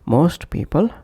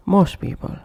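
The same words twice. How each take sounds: First: MOST PEOPLE with the t of MOST released; full final T. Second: MOST PEOPLE as "mos people"; dropped T. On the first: Teacher repeating separate words, full final T. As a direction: say "most" fully, then "people". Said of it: "pronounced as". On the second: Teacher repeating connected pronunciation, dropped T. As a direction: push "mos" straight into "people". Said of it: "omitting T or T completely". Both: Shown as a demonstration.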